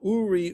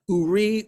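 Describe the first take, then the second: First: The stress is on the first syllable. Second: The stress is on the second syllable. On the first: "look at the trup mark under the first syllable" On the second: "the emphasis in the first part of the verse is on the second"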